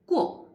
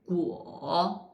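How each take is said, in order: First: It is said with the fourth tone. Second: It is said with the third tone. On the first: "fourth tongue" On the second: "third tongue"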